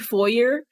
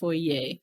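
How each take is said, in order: First: It is said in a plain, everyday way. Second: It is said in a fancy, posh-sounding way. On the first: This is how the speaker normally says it. "I was going to say foyer" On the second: This is how a fancy person says it. "she pronounces it proper. She says foyer"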